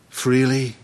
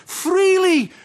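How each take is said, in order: First: Said in the usual way. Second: Much higher, louder ringing call; proclaimed. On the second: Acted. Christ charging his disciples, ringing proclaimed call. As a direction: cry it out to the hall.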